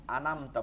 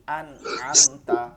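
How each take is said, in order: First: "আনামতা" with an extra a after the n; wrong vowel. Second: "আন'আমতা" slow, stopping on n before a fresh a; closed nun. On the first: Retold or imitated. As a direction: mimic the slip, opening the nun into "না". ("আনামতা" নুনে ভুল জবর দিয়ে) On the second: Shown as a demonstration. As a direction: separate "আন" from "আমতা" with no vowel on the nun. ("আন'আমতা" নুনে জবর ছাড়া, ধীরে) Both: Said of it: "নুনে জবর দিছেন".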